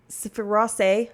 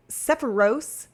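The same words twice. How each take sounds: First: Sephiroth said with the th ending; corrected reading of Sephiroth; corrected name. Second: Sephiros said with an s at the end; misreading Sephiros before the correction; wrong reading. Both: Shown as a demonstration.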